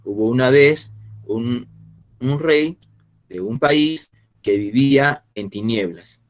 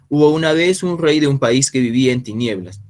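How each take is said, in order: First: The sentence is read at a slower pace. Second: The sentence is read at a faster pace. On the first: The speaker calls it wrong. "A diferencia de decir" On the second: The speaker calls it right. "vamos pronunciando con un poco más de rapidez"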